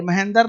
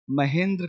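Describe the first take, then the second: First: "महेंद्र" as ma-hen-dar, vowel before r; wrong reading. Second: "महेंद्र" as ma-hen-dra, dr run together; low, softer "महेंद्र" with tight dr cluster; correct reading. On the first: Teacher rejecting a misreading, "[name]" as ma-hen-dar. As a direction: open up the end of "महेंद्र" into "dar". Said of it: "ये [name] नहीं है". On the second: Teacher correcting the misreading, "[name]" as ma-hen-dra. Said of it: "[name] है". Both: Shown as a demonstration.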